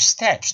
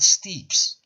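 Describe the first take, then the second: First: The vowel is short, as in 'pet'. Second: The vowel is long, as in 'meet'. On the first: The speaker calls it right. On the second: The speaker calls it wrong. "not steeps"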